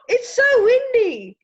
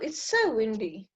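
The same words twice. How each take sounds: First: It is said with strong feeling, as an exclamation. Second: It is said calmly, as a plain statement. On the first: The speaker is reacting while caught in the wind. "ah, ... And then it's going to be an exclamation mark" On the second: The speaker is simply informing someone about the weather. "just me telling you, oh, ... then it can be a full stop"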